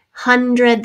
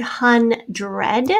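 First: Said in the usual way. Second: "hundred" split as HUN-DRED; "hundred" in two separate, clear syllables. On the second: Shown as a demonstration. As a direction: sound out "hundred" with a full "dred". Review word sounded out by syllables.

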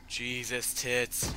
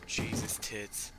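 First: Tits punched higher and louder, slow; stressed tits. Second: Said in the usual way. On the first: Real, not acted. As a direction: drag out and hit tits. Reacting to the ogre again.

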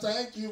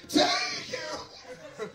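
First: Said in the usual way. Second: Piercing falsetto mock shriek; imitated shout. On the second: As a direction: squeal it like the shouting girl. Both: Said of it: "The girl with the shout".

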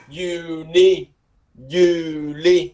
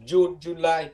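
First: "Juni. Juli" said YOO-nee, YOO-lee, long vowels; Norwegian pronunciation. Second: "June, July" said the English way, joon, joo-LY; English month names "June, July" with a j sound; English pronunciation. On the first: Teacher contrasts with English, drawn-out Norwegian "Juni. Juli". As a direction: draw out "Juni. Juli" with a y sound at the start. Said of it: "Kéo dài cái âm". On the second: Teacher gives English names for comparison, English-style "June, July". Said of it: "July đó". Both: Shown as a demonstration.

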